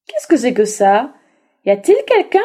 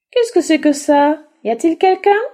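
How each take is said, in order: First: Louder wolf, rising on quelqu'un; gruff wolf. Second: Higher, louder puzzled donkey; curious little donkey. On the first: Wolf asking who hides in the bagpipe, suspicious. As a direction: ask it like a prowling wolf. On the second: Little donkey asking who is inside, curious. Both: Acted.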